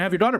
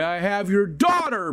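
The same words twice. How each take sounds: First: It is said quickly and run together. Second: It is said slowly with every word enunciated. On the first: The joke stays hidden. The speaker calls it right. "We would say it very quickly" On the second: The joke is obvious. The speaker calls it wrong. "he said it so slow and, and really enunciated"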